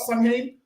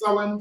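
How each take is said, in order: First: The word is sounded out letter by letter. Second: The word is said unlike its letters. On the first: The speaker calls it wrong. "People read it's pronounced spelled" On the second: The speaker calls it right. "the proper pronunciation"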